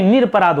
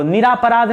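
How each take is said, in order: First: निरपराध as nir-pa-raadh, no aa after r; right form. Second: निरापराध with a long aa, ni-raa-pa-raadh; wrong form. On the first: Teacher to students giving the right form, nir-pa-raadh. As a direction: run nir straight into pa in निरपराध. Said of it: "निरपराध होता है". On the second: Teacher to students marking the wrong form, long raa. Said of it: "निरापराध नहीं". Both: Shown as a demonstration.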